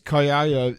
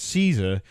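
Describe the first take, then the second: First: The name begins with a k sound. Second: The name begins with an s sound. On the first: "You go, "It's Kaiser,"" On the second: "You wouldn't read it and go, "Oh, that's Caesar.""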